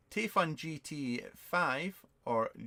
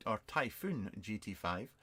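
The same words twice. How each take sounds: First: "Typhoon" said as "TAY-fun", slowly; misread name. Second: "Typhoon" said as "tie-FOON"; corrected name. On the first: Vlogger puzzling over a viewer's question, "Typhoon" misread as "TAY-fun". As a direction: read "Typhoon" haltingly as "TAY-fn". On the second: Vlogger correcting the name he read, "Typhoon" as "tie-FOON". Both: Real, not acted.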